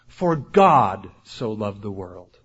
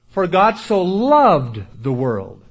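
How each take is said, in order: First: The word God carries the emphasis. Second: The word loved carries the emphasis. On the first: It was God, not anyone else, who loved the world. "Not for John the Baptist so loved the world" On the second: The world was loved rather than hated. "Emphasize a different word. ... Not hated it, He loved it"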